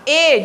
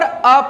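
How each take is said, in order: First: It is a full 'ay' vowel. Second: It is a short reduced 'uh' vowel. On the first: "strong form" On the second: "weak form है"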